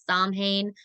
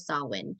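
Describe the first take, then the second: First: The word has its neo-pagan pronunciation. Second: The word has its traditional pronunciation. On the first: Some modern practitioners call it this. "that is a neo-paganism translation" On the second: This is the long-standing way to say it. "it is traditionally Samhain"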